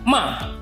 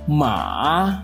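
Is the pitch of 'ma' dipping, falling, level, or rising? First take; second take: falling; dipping. First: The pitch falls sharply from high to low. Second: The pitch dips low, then rises again. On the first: It means to scold. "dimulai dari nada tinggi, kemudian langsung turun ke nada rendah" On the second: It means horse. "dimulai dari nada setengah rendah ke nada rendah, kemudian naik ke nada setengah tinggi"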